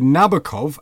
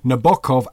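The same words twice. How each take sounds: First: The stress is on the first syllable. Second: The stress is on the middle syllable. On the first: This is how English speakers say it. "accent on the first" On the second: This is how Italian and Russian speakers say it. "accent in the middle"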